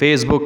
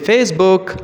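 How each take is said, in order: First: The pitch stays flat and even. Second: The pitch moves with lively intonation. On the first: The speaker calls it wrong. "నేను Facebook అనలే" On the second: The speaker calls it right. "Facebook అన్నా"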